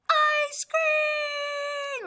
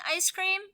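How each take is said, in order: First: High, loud excited shout. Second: Said in the usual way. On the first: Acted. Gerald shouting about ice cream in the story, loud and high. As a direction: shout it like it's the best news ever. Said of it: "I wanna make it". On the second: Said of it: "Gerald's gonna be saying".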